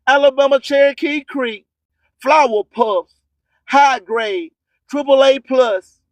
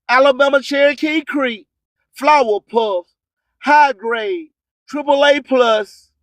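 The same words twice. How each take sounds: The two takes are said the same way.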